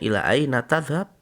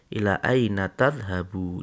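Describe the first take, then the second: First: The last word ends on a consonant, no vowel. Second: The last word ends with a short 'u' vowel.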